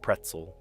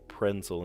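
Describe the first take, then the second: First: The middle has a t sound before z. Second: The middle has an n sound before s. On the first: This is the standard way to say it. The speaker calls it right. "instead of pretzel" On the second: This is how the children used to say it. The speaker calls it wrong. "they used to say prensel instead of pretzel"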